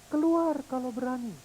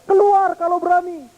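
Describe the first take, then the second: First: Softer, distant repeat; echo of the dare. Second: Put-on high, loud child's dare; angry challenge. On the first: Pretend. Echo throwing the dare back, soft and distant. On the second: Angry little boy challenging the hills, loud high dare. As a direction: dare the voice to show itself.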